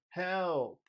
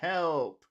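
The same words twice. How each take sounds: First: The vowel in 'help' is big and drawn out. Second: The vowel in 'help' is short and plain.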